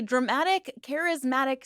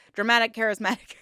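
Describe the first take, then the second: First: Said in the usual way. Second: Quick playful attempt at a tricky phrase; tongue-twister fast. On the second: Shown as a demonstration. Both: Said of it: "Say that five times fast".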